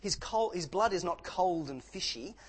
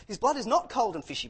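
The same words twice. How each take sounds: First: Said in the usual way. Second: Not hit hard, louder and higher; loud emphatic not before cold and fishy; stress on not. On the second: Shown as a demonstration. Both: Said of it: "imagine that, cold and fishy".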